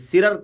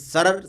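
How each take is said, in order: First: The first vowel is an i sound. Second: The first vowel is an a sound. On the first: The speaker calls it wrong. "ये सिरर का लफ्ज़ नहीं है" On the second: The speaker calls it right. "सीन के फतहे के साथ यानी सीन पर ज़बर के साथ है"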